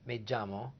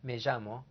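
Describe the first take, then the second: First: The double L sounds like a J. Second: The double L has a buzzing J-like sound. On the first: "A J sound, Puerto Rico" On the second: "A J sound, as in Argentina, Uruguay"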